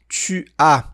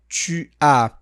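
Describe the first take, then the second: Both takes have the same delivery.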